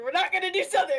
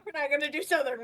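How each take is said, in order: First: A hint of a Southern accent. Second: Said in the usual way. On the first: Shown as a demonstration. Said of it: "Incoming Southern".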